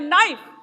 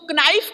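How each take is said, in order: First: The word begins with an N sound. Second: The word begins with a sounded K. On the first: The speaker calls it right. "अक्षर silent होते हैं" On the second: The speaker calls it wrong. "इसमें तो के लगा है पहले"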